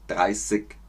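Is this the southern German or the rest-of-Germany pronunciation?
southern. It is said with a southern German, Bavarian accent.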